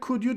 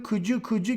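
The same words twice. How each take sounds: First: The two words are said clearly and separately. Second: The two words run together with a blended sound. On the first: "ama aslında onun doğrusu could you'dur" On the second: "hep böyle could you gibi çıkıyor ağızdan"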